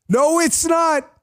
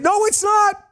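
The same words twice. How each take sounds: First: High, slow, drawn-out mocking voice; mock denial. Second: High-pitched mocking voice, pitched way up; mock denial. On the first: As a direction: stretch each word out in a silly high voice. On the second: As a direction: squeak out the denial like a mock figure.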